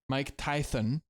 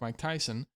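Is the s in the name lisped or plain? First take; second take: lisped; plain. First: The s sound is lisped like th. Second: The s sound is a plain hiss.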